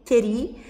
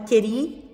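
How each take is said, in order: First: The shortened form ends in a stressed i. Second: The shortened form ends in a stressed i.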